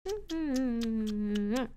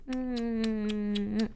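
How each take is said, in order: Both takes have the same delivery.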